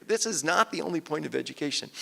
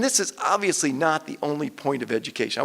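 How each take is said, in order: First: Firm stress on "not"; emphatically clear. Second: Said in the usual way. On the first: Real, not acted. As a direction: drive home the word "not", measured and deliberate. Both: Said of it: "I want to make that emphatically clear".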